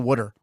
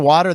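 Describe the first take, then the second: First: It is said in a Philadelphia accent. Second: It is said in a standard accent.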